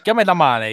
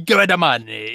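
First: It is said in his normal voice. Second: It is said in a gruff Watto voice.

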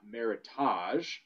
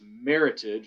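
First: The ending does not rhyme with heritage. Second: The ending rhymes with heritage. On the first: The speaker calls it wrong. "not Meritage, which is a common misconception" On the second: The speaker calls it right. "it's Meritage because the word is actually a blend of two words, merit and heritage"

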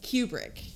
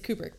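First: The first syllable sounds like 'cue'. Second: The first syllable sounds like 'coo'. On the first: The speaker calls it wrong. "But that's not right. ... They just give it a long U" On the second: The speaker calls it right. "It's Kubrick"

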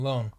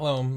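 First: The word ends with a clear n sound. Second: The word ends with an m-like sound. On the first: The speaker calls it right. "Lone with an N" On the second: The speaker calls it wrong. "Not lone"

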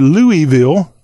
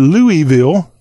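First: It is said as three syllables, louie-ville. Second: The same.

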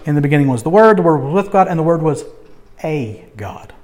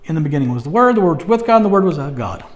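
First: The word 'a' is said clearly. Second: The word 'a' is muttered under the breath.

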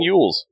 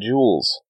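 First: The name begins with a Y sound. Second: The name begins with a J sound. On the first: "She might have been Yules" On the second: "Oh, yeah, Jules"

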